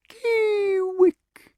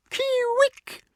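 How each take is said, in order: First: Very high tender owl call. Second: Very high, slow challenging Kee-wick; angry call. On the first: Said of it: "in tender accents if you're in love". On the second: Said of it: "angrily in challenge or in hate". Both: Shown as a demonstration.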